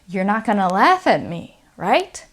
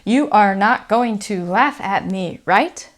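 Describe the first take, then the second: First: Words are reduced in a relaxed, casual way. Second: Every word is said fully and carefully.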